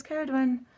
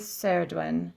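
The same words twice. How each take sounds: First: "Caradwyn" starting with a K sound; "Caradwyn" with hard C; mistaken hard C. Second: "Saradwin" starting with an S sound; "Saradwin" with hissed S for C; soft C. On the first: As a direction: say "Caradwyn" as KAIR-ud-win. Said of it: "I thought it was Caradwyn". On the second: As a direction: say "Saradwin" as SAIR-ud-win. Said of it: "she's saying a soft C". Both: Shown as a demonstration.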